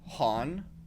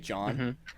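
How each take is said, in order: First: The name begins with an H sound. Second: The name begins with a J sound. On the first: The speaker calls it wrong. "they kept saying my name Han" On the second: The speaker calls it right. "because they can't say John"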